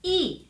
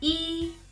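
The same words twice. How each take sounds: First: The syllable is said with the fourth tone. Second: The syllable is said with the first tone. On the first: "and fourth" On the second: "this is the first tone"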